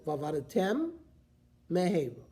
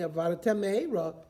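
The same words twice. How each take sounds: First: Said carefully, the two words stay apart. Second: Said quickly, the two words merge into one. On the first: The speaker calls it right. "So you have to be careful" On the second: The speaker calls it wrong. "If you say it very quickly, well, there's one word, the mem gets swallowed up"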